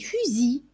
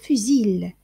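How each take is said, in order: First: The word ends on the i vowel. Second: The final L sound is pronounced. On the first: The speaker calls it right. "on dit fusil. C'est comme si ça s'arrêtait sur le i. On n'entend pas le L" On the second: The speaker calls it wrong. "On ne lit pas fusil"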